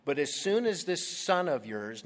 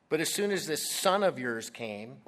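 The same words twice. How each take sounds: First: Said in the usual way. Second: "this son of yours" said pointedly, "of" rising; stress on this son of yours. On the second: Shown as a demonstration. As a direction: lean on "this son of yours" with contempt. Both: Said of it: "notice how he refers to his brother".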